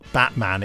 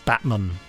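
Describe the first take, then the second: First: The final vowel is a full, clear a. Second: The final vowel is a weak schwa. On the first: The speaker calls it wrong. "So it's not Batman" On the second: The speaker calls it right. "Using the schwa. ... the de-stressing of the A"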